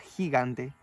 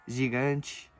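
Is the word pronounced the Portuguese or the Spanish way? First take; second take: Spanish; Portuguese. First: The g has a strong Spanish sound. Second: The g has a soft Portuguese sound. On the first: "El sonido más fuerte sería como por ejemplo la palabra gigante" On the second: "en portugués diríamos gigante"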